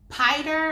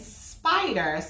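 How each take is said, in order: First: The word starts without an s sound. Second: The word starts with an s sound. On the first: The speaker calls it wrong. "Are you saying piter" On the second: The speaker calls it right. "or are you saying spider?"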